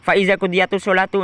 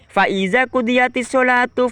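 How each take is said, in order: First: The phrase is recited in a plain ordinary style. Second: The phrase is recited in a special variant style. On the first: This is the ordinary reading. "itu dibaca biasa saja" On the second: This follows one school's recitation reading. "Maksudnya seperti ini"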